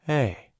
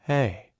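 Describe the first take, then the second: First: The vowel starts gently and gradually. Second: The vowel starts gently and gradually.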